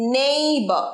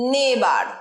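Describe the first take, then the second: First: The first syllable is a 'nay' sound. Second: The first syllable is a short 'neh'. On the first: The speaker calls it right. "এটা সঠিক pronunciation" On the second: The speaker calls it wrong. "নে নয়"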